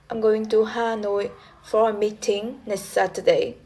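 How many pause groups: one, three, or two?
two. It is split into two tone units.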